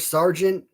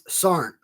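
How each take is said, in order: First: The word is said fully and carefully. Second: The word is said quickly and clipped. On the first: "it's no longer sergeant" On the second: "you're speaking fast"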